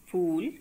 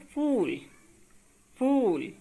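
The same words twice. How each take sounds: First: फूल with an aspirated ph, phool meaning flower; plain phool. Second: फूल said as the English fool with an f; f sound, fool, the English word. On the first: Teacher contrasting flower phool for students, aspirated ph. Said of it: "फूल का अर्थ होता है पुष्प". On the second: Teacher giving students the English fool with f. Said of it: "ये अंग्रेजी का शब्द है". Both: Shown as a demonstration.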